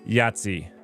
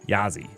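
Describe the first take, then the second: First: The name has a t sound before the z. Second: The name has no t sound before the z. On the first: The speaker calls it wrong. "Not Yahtzee" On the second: The speaker calls it right. "It doesn't have the T"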